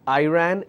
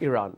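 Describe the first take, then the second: First: It is said with an American pronunciation. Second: It is said with a British pronunciation. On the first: "Americans pronounce that as" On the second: "most of the countries, they follow British English. We pronounce the word as"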